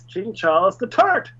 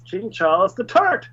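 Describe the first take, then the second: First: It is said in an Irish accent. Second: The same.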